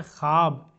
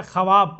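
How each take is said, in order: First: ख्वाब read as khaab, silent व; spoken form. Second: ख्वाब with the written व sounded, kha-wab; spelled-out form. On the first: Teacher shows how ख्वाब is actually read, silent व. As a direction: say ख्वाब the normal way, no व sound. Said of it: "पढ़ते क्या है?". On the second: Teacher shows how ख्वाब is written, sounding the व. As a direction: say ख्वाब as written, every letter voiced. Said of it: "लिखे क्या?". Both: Shown as a demonstration.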